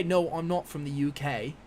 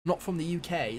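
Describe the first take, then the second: First: Slow, mock British accent attempt; a self-mocking try at a British accent; playful fake British accent; bad British accent. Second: Said in the usual way. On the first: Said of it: "That's probably a really bad accent". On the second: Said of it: "This is my, it's my attempt at a".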